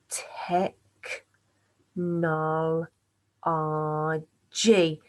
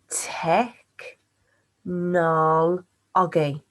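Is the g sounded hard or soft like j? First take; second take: soft; hard. First: The g is sounded soft, like a j. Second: The g is sounded hard, as in go. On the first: The speaker calls it right. "it seems like it should be a j sound" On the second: The speaker calls it wrong. "there's something quite not quite right there"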